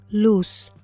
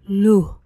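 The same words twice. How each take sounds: First: The word ends in a clear s sound. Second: The word ends in a faint breath. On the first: "la traducción en español estándar" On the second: "con la pronunciación puertorriqueña"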